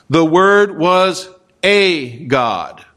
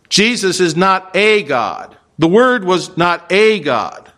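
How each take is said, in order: First: Slow, weighty stress on the a in "a God"; quoting the rival translation with a slow stressed "a"; mock wrong reading. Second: Slow, firm "not a God" with stress on "not"; slow, firm denial correcting the wrong reading; emphatic correction. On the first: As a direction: read "The Word was a God" drawn out, leaning on "a". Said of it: "Translation says". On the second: Shown as a demonstration. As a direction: hammer home "Jesus is not a God".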